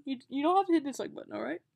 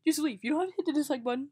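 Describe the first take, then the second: First: Loud hammed-up repeat, fast; bad acting. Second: Loud, fast, hammed-up plea; bad acting. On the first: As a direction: overdo the hurt plea again. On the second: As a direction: overact a wounded plea, loudly. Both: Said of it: "I'm a terrible actor".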